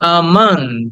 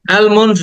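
First: No L sound; the first vowel is drawn out. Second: An L sound is pronounced before the m. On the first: The speaker calls it right. "আটাকে টেনে বলো আমন্ড" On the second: The speaker calls it wrong. "অ্যালমন্ড না, এটাকে অনেকে অ্যালমন্ড বলে"

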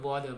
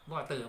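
First: It is said in an American accent. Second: It is said in a British accent. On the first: "ในภาษาอังกฤษสำเนียงอเมริกัน" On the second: "สำเนียงอังกฤษ"

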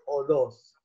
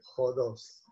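First: The word starts directly with a vowel. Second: The word starts with a soft breathy h. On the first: This is how it is said today. "Ahora uno va a Atenas y dice odós" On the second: This is how the original spelling calls for it. "en realidad tendría que ser jodós, porque en griego va con espíritu áspero"

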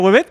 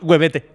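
First: The name ends on a consonant sound. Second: The name ends with an extra vowel sound. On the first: This is how the name is really pronounced. The speaker calls it right. "Se pronuncia Webet" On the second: This is how the name looks when read from the spelling. The speaker calls it wrong. "pero si tú lo lees, es Webete"

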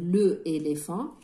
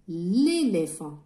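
First: The article's vowel is kept before the word. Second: The article's vowel is dropped and joined on. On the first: The speaker calls it wrong. "on va pas dire le éléphant c'est lourd" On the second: The speaker calls it right. "on va dire l'éléphant"

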